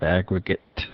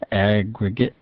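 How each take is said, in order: First: The final T is fully released. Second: The final T is glottalized.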